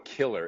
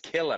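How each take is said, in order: First: The word ends with a clear r sound. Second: The word ends in a vowel, no r sound. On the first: The speaker calls it wrong. "There's no E R on anything. There's no killer" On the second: The speaker calls it right. "It's killer, mate"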